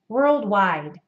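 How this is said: Said with an open jaw, North American style. "I would say it in my accent as worldwide"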